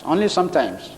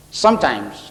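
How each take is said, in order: First: Only leaned on, the rest softer; stress on only. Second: Said in the usual way. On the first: Shown as a demonstration. Speaker qualifying closing advice to audience, stress on only. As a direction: land the word only, then drop away.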